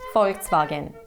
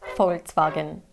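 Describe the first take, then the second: First: It is said with a German pronunciation. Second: The same.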